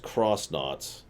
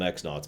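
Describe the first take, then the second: First: The first part is said as 'cross'. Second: The first part is said as 'ex'. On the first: "they are supposed to be pronounced cross knots" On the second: "I'm going to keep calling them X knots"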